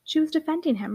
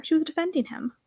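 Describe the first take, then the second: First: "She" stressed and raised, falling after it. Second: "was" leaned on, falling after it; stress on was. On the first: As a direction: point out that SHE was the one defending. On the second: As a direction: insist that she WAS defending him. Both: Acted. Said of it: "repeated Rose".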